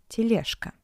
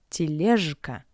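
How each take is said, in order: First: The consonant before k sounds like voiceless sh. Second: The consonant before k sounds like voiced zh. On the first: The speaker calls it right. "but тележка. The letter J in front of the voiceless consonant K sounds like sh" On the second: The speaker calls it wrong. "not тележка"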